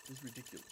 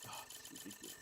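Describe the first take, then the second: First: Said in the usual way. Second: Breathy, barely voiced groan of disbelief; exasperated whisper. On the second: Real, not acted. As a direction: let it sag out under your breath. Exasperated at bad crate luck.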